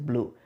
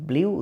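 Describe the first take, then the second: First: The vowel is a plain 'oo', like 'bloo'. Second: The vowel has a y-glide, like 'blyoo'. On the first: The speaker calls it right. "এটা আসলে হচ্ছে ব্লু" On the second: The speaker calls it wrong. "আমরা এটাকে অনেকেই ব্লিউ উচ্চারণ করি"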